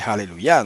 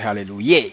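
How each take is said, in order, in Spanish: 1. La palabra termina en sonido 'ya'. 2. La palabra termina en sonido 'ye'. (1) "se dice aleluya" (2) "no se dice aleluya"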